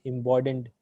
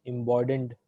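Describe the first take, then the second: First: The middle consonant is a d sound. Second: The middle consonant is a d sound.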